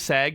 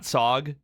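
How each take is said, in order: First: The vowel sounds like the one in 'sag'. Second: The vowel sounds like the one in 'sog'. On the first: The speaker calls it right. "It's actually Sag" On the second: The speaker calls it wrong. "not Sog"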